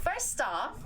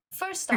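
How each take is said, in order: First: Said in the usual way. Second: A lightly voiced friend, high and loud; Stork voice. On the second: Shown as a demonstration. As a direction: launch into a mate's voice, hammed up. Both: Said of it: "this is Stork's voice, okay?".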